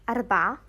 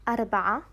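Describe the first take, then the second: The two takes are said the same way.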